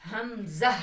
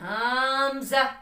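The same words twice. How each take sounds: First: The word is said gently and calmly. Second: The word is said forcefully, not gently. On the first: The speaker calls it right. "आराम से" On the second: The speaker calls it wrong. "ये तीनों sound इसके wrong हैं"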